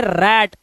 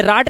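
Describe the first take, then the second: First: रैट with the short "æ" of rat; correct vowel demo. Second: राट with a long open "aa", the mistaken way; wrong vowel demo. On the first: Teacher giving the right reading रैट with the "æ" vowel. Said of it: "इसे पढ़ते हैं रैट". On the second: Teacher showing the wrong reading राट with a long "aa". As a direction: say राट like "raat". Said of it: "ये राट नहीं है". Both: Shown as a demonstration.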